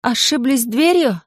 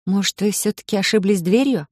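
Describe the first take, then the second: First: Raised voice. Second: Said in the usual way. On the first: Acted. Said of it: "предпочитая повысить голос". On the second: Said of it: "начав немного издалека".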